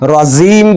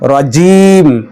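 First: The jim consonant is not pronounced clearly. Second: The jim consonant is pronounced clearly. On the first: The speaker calls it wrong. "রাজিম বলা যাবে না" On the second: The speaker calls it right. "এখানে জিমকে সুন্দরভাবে উচ্চারণ করতে হবে।"

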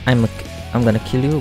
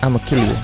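First: The words 'I'm gonna' are said in full. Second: The words 'I'm gonna' are squeezed into 'I'ma'. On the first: This is the ordinary way of speaking. "Not I'm gonna kill you" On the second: This is the character's particular accent. "but I'ma kill you. Something like that. I think that's how the accent kinda is"

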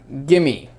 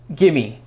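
No difference in how they are said.

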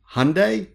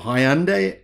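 First: Hyundai is said in a non-Australian way. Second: Hyundai is said the Australian way.

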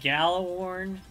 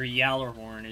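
First: The word begins with a hard G sound. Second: The word begins with a Y sound. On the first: The speaker calls it wrong. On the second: The speaker calls it right.

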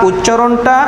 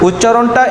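Both takes have the same delivery.

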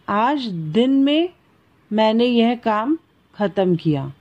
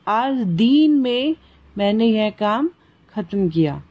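First: The vowel in din is short. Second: The vowel in din is long. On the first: "दिन" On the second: "दीन लंबी की मात्रा"

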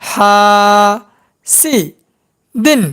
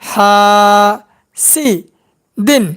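First: Each syllable is said separately with pauses between. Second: The same.

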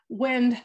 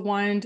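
First: The vowel is short, as in 'win'. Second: The vowel is long, as in 'wine'. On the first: Moving air. "blowing air kind of definition" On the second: To turn something round, as a clock. "like to wind a clock, spoken differently"

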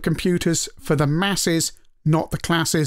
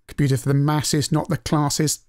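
First: It is said in a northern English accent. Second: It is said in a southern English accent. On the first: The two words rhyme. The speaker calls it right. "you have to do that in a say that in a northern way to make that work" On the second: The two words do not rhyme. The speaker calls it wrong. "Doesn't work"

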